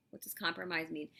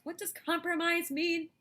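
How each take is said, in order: First: Said in the usual way. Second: Much higher, louder, mock-puzzled voice; hammed-up question to the class; dramatic question. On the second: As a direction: pose it like a big mystery. Teacher asks dramatic question.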